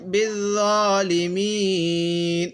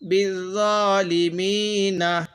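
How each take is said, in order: First: The word ends on the consonant n. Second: The word ends with a final vowel sound. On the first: The reader stops at this word. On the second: The reading continues without stopping.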